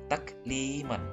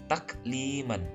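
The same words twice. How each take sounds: The two takes are said the same way.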